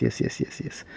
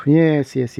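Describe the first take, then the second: First: Breathy whispered yeses; whispering. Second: Said in the usual way. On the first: Real, not acted. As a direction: whisper it to yourself. Repeats yes under breath.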